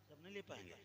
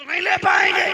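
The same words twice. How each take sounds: First: Quiet. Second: Booming high shouted sermon line; fiery preaching. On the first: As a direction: say it gently to yourself. Quiet plain repeat. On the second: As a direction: thunder it at the crowd. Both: Acted.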